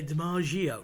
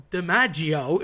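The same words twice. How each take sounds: First: "DiMaggio" with a soft zh sound, duh-MAH-zhee-o; mock the American "DiMaggio" with a French-style zh; "DiMaggio" said the wrong way, like a French j; wrong soft pronunciation. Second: "DiMaggio" with a hard Italian "gg", dee-MAH-djo, drawn out; slow, proper Italian "DiMaggio"; Italian pronunciation. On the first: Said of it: "But people say". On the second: Shown as a demonstration. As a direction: say "DiMaggio" the Italian way, the double g stressed and held. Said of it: "It's formaggio".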